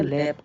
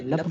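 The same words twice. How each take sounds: First: लैप with an open a; short A sound. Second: लप with an uh vowel; U sound instead. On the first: Teacher asking students why, लैप with short a. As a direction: say लैप with a as in cat. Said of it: "लैप क्यों बोलते हैं". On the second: Teacher offering a misreading, लप with uh. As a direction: say लप to rhyme with cup. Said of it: "लप क्यों नहीं बोलते". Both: Shown as a demonstration.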